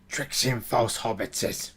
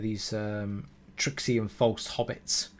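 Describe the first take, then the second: First: It is said in a put-on creature voice. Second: It is said in the speaker's ordinary voice.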